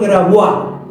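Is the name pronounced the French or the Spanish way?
French. The name is pronounced the French way.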